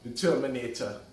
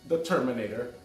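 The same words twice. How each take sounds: First: It is said in a put-on heavy accent. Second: It is said in the speaker's normal voice.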